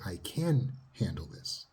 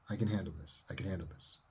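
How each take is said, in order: First: Slow, steady and assured; calm self-assurance. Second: Softer, murmured to yourself; quiet self-talk. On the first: Therapist showing self-talk, slow and steady. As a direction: say it slowly like you believe it. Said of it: "you have to say". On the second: Therapist showing inner self-talk, soft and quiet. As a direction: repeat it quietly inward. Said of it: "Tell that to yourself in your self-talk". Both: Shown as a demonstration.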